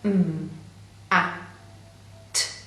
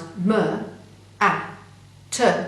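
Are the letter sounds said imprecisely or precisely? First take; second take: precisely; imprecisely. First: The letter sounds are said precisely. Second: The letter sounds are said imprecisely. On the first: The sounds blend into a recognizable word. The speaker calls it right. "if you blend the sounds precisely" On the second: The sounds do not blend into a recognizable word. The speaker calls it wrong. "you will get m-a-t, which will not sound like a word you might recognize"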